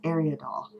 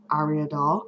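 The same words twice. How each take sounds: First: Ariadol opening like "air"; alternate pronunciation. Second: Ariadol with a broad AH at the start; own pronunciation. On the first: Vlogger giving the other way she has heard, AIR-ia-doll. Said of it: "It's also been pronounced". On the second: Vlogger giving her usual way of saying a doll name, AH-ria-doll. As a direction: say Ariadol opening on "ah". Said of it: "that's how I pronounce it". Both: Shown as a demonstration.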